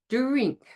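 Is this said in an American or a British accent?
British. The word starts with a plain, unaffricated d-r. "If you were speaking British English, you would say drink"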